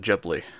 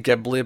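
First: The word begins with a soft G sound. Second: The word begins with a hard G sound. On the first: The speaker calls it right. "the correct pronunciation is actually Ghibli" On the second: The speaker calls it wrong. "I always say Ghibli"

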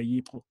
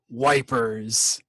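First: It is said with an English-speaker's approximation. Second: It begins with a w sound, like 'wipers'. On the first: This is a close but imperfect approximation. "I'll usually say Yper. But I'm probably even still a little off" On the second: This is how British soldiers said it. "if you're a dumbass British soldier"

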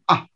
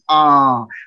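First: The vowel is held only briefly. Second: The vowel is held for a long time. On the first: "a short A would sound like ah" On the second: "a long A would go ah, almost like you would sound if the doctor were looking at your throat"

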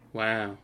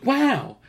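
First: It is said with no enthusiasm. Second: It is said with enthusiasm.

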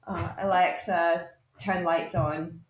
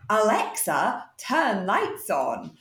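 First: It is said in a normal, casual voice. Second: It is said in a put-on, silly voice.

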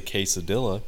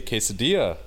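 First: The double L is said as an L sound. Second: The double L is said as a Y sound. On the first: The speaker calls it wrong. "you don't say quesadilla" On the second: The speaker calls it right. "you say quesadilla"

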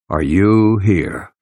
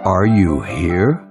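First: It sounds like a rhetorical statement. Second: It sounds like a genuine question.

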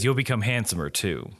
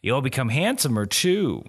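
First: Said in the speaker's own ordinary voice. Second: Said in an attempted put-on character voice. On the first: "I'll just do an Aaron voice" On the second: "that's not his voice"

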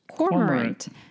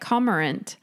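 First: There is an r sound after the first o. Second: There is no r sound after the first o. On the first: The speaker calls it right. "there's an R after the O. So it's cormorant" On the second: The speaker calls it wrong. "I've always thought this is how you say it"

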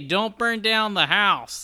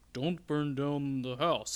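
First: It is said in an un-Smokey-like voice. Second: It is said in a Smokey the Bear voice. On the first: "It was more like, hey, ... that doesn't sound like Smokey" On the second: "He wasn't like"

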